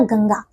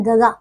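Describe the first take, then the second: First: गंगा said with a clear nasal ng before the second ga; corrected word. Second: गगा read as written, plain ga-ga with no nasal sound; wrong spelling read out. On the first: Teacher showing children the corrected word with a clear nasal. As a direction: give गंगा its full nasal, gang-ga. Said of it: "आप जब ग के ऊपर अंक बिंदी लगाएंगे". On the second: Teacher showing children the unmarked word, ga-ga without nasal. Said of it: "लेकिन गगा कुछ नहीं होता". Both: Shown as a demonstration.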